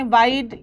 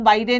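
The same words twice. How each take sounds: First: वाइड as one syllable, ending on the d; वाइड with no vowel after the d; silent final e. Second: वाइडे with an extra "ay" after the d; वाइडे in two syllables, ending in "ay"; mistaken sounded e. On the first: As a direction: say वाइड like English "wide", e silent. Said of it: "यहाँ पर ये sign नहीं है". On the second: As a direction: say वाइडे as "wai-day", wrongly sounding the final e. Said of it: "इसको हम वाइडे नहीं पढ़ते". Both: Shown as a demonstration.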